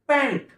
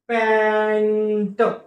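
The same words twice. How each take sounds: First: The word is said quickly. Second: The word is said slowly.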